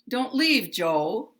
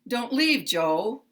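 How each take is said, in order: No difference in how they are said.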